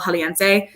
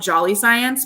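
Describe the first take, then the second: First: The name is said with Spanish sounds. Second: The name is said like the English words 'jolly science'. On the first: This is the real name. The speaker calls it right. "It's El Jaliense" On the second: This is the local nickname. The speaker calls it wrong. "We call it Jolly Science, but it's not how you say it"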